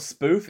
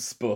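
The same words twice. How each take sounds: First: Said in the usual way. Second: "spoof" with a short vowel, as in "put"; short-vowel pronunciation. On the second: Shown as a demonstration. Checking the slang word, "spoof" said with a short vowel. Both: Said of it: "it's not spoof, it's spoof".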